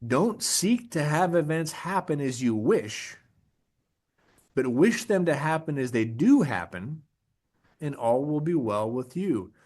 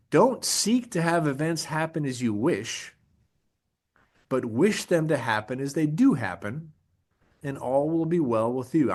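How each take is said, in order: First: Even slower, deliberate recitation; second, emphatic reading of a Stoic quote; slower repeat. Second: Measured, deliberate recitation; first reading of a Stoic quote; slow quote reading. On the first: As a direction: repeat the quote slowly so it sinks in. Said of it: "I'm gonna say that again". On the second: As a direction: read the quote slowly, weighing each phrase. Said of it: "an Epictetus quote". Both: Shown as a demonstration.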